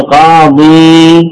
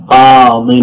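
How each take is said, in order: First: "قاضي" slowly, with the final ee held long and no n; long final vowel. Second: "قاض" said qaadin, short i closed by an n; short tanween ending. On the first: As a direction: draw out the last ee of "قاضي". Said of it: "أصل". («قاضي» بمدّ الياء الأخيرة دون تنوين) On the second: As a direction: end "قاض" on a short -in with no long ee. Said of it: "فحذفت الياء". («قاض» بتنوين الكسر دون ياء) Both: Shown as a demonstration.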